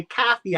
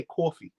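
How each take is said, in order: First: "coffee" with a flat front a, like "kaffee"; Boston pronunciation. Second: "coffee" with a long open aw, like "kawfee"; New York pronunciation. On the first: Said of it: "they say coffee". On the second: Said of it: "I say coffee". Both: Shown as a demonstration.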